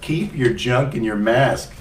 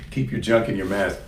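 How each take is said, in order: First: "Keep your junk in your mask" slow, each word punched with a silly emphasis; emphatic but silly. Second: Said in the usual way. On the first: Shown as a demonstration. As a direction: lay into "Keep" slowly, mock-stern and playful. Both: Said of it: "that's how you say it".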